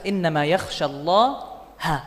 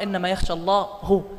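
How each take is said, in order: First: The word Allah ends with an 'a' vowel. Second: The word Allah ends with a 'u' vowel. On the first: God is the one who is feared. The speaker calls it right. "يقول الله جل وعلا في كتابه العزيز" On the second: God is the one who fears. The speaker calls it wrong. "ممكن أن تقرأ"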